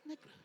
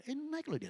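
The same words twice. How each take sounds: First: Quiet aside. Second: Much higher, startled exclamation; mock surprise. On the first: Pretend. Repeats it softly. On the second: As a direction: act shocked at the reading. Mock shock at blood test.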